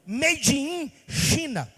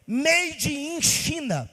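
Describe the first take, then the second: No difference in how they are said.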